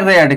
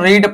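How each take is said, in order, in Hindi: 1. स्वर छोटा है, 'bed' की तरह। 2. स्वर लंबा है, 'seed' की तरह। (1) "लेकिन इसको यहां पर आपको पढ़ते हैं रेड" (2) "और वन नंबर में इसको रीड पढ़ा जाता है"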